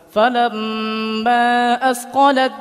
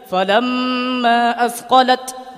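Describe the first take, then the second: First: The final t merges fully into the following d. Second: The final t is sounded clearly on its own. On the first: The speaker calls it right. "Tapi dimasukkan ke dal secara sempurna" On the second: The speaker calls it wrong. "Cara membacanya tidak falamma asqalat, tidak"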